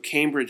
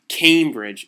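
First: The word is said in a neutral tone. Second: The word is said with audible disdain. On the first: The speaker calls it wrong. "not the correct pronunciation" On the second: The speaker calls it right. "the correct pronunciation"

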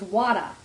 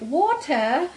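First: The middle consonant sounds like a soft D. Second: The middle consonant is a crisp T. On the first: It is how Australian people say it. "in Australia, they're a little lazier, and so they emphasize the D" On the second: It is how British people say it. "in Britain it's like, they emphasize the T"

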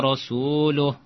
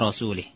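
First: The vowel before the final h is 'u'. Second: The vowel before the final h is 'i'. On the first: The messenger also disowns the polytheists. The speaker calls it right. "Yang benar ... dengan doma" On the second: The messenger is disowned along with the polytheists. The speaker calls it wrong. "Dia baca dengan kasrah"

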